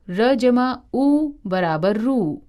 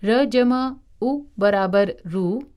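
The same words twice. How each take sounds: First: "रू" said as roo with a long ū; long u sound. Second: "रू" said as ru with a short u; short u sound. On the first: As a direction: draw out the u in "रू", slowly. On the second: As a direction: clip the u in "रू" short, as रु. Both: Shown as a demonstration. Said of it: "उ और ऊ की मात्राएं र के पेट में लगाई जाती हैं".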